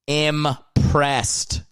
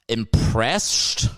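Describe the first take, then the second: First: "Impressed" slowly, syllables separated, crisp st; careful correction. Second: "Impressed" with a mushy sh before the t; slurred word queried. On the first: Shown as a demonstration. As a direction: enunciate "Im-pressed" with a clean s. Corrects his own slurred word. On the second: Real, not acted. Queries his own slurred word.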